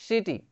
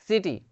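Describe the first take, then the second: No difference in how they are said.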